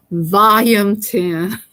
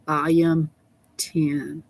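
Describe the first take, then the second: First: "Volume ten" drawn way out and louder; emphatic repeat. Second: Said in the usual way. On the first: Real, not acted. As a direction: stretch "Volume ten" slowly, hitting it hard.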